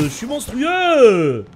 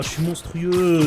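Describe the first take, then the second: First: Slow, loud stretched brag; hyped drawn-out boast. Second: Said in the usual way. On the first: Real, not acted.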